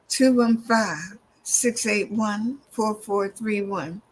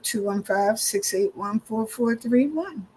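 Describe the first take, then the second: First: Each digit is said slowly and distinctly. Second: The digits run together at a normal pace.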